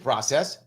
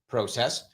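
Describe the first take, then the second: First: It is said in an American accent. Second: It is said in a Canadian accent.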